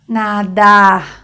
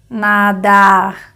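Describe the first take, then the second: First: The final r sounds like a French r. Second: The final r sounds like a French r.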